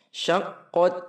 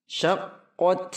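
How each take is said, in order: The two takes are said the same way.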